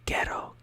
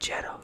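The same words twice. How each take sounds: First: The word starts with a hard g sound. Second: The word starts with a soft j sound. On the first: The speaker calls it right. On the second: The speaker calls it wrong.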